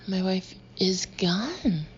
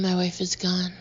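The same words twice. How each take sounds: First: It is said in a panicked, angry way. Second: It is said in a calm, flat way.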